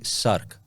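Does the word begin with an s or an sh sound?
s. The word begins with an s sound.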